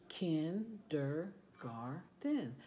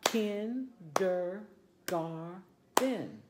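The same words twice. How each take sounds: First: "Kindergarten" slow and soft, syllable by syllable; clapped syllables, softer. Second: "Kindergarten" slowly, syllable by syllable; clapped syllables. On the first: Teacher repeating the clapped word, slow and soft. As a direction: tap out "Kindergarten" quietly in beats. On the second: Teacher clapping out word for class, slow syllables. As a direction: clap out "Kindergarten" in four beats. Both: Shown as a demonstration. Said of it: "Let's clap it out".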